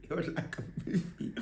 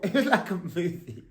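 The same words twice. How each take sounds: First: Breathy whisper, much softer. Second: Said through a soft laugh. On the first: Repeating the line to viewers in a hushed whisper. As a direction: whisper it like a secret. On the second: Telling viewers about the chase, laughing. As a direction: laugh it out, amused. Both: Real, not acted.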